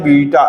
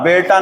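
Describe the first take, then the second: First: The first vowel sounds like 'ee'. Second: The first vowel sounds like 'ay'. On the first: The speaker calls it right. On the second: The speaker calls it wrong.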